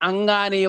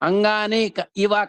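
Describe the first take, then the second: First: The two words are merged into one word. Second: The two words are said separately. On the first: "కాస్త అంగానీవ అవుతుంది" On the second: "అంగాని ఇవ కాస్త అంగానీవ అవుతుంది"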